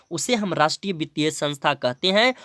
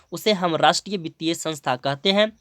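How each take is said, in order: Both takes have the same delivery.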